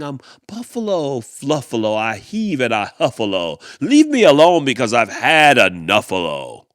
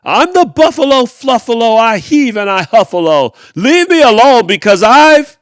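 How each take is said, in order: First: A hint of the grumpy buffalo, barely louder; imitating mean person. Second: Very loud, high furious roar of the motto; snarling shout. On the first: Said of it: "Can you hear them saying". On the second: Acted. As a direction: stomp and bellow every word with rage. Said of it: "he snarled and he gnarled and he stomped".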